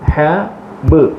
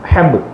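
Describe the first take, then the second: First: The two sounds are said separately with a pause. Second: The two sounds are joined quickly without pause.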